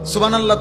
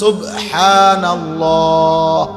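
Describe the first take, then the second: First: The throat 'h' sounds are weak or dropped. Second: The throat 'h' sounds are fully pronounced. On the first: The speaker calls it wrong. "সুবহানাল্লাহ তো কোনো শব্দ না" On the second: The speaker calls it right. "শব্দ তো হলো সুবহানাল্লাহ"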